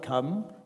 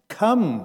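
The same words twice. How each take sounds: First: It is said softly, like a gentle invitation. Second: It is said firmly, like a direct command. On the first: Coming is optional. The speaker calls it wrong. "although that might just sound like an invitation to come" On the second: Coming is required. The speaker calls it right. "a necessary command, a directive"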